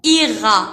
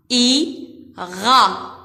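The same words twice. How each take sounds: First: Said in the usual way. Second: "Ira" broken into I, pause, ra; split into syllables. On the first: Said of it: "Donne le mot ira". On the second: Shown as a demonstration. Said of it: "la lettre I et la syllabe ra".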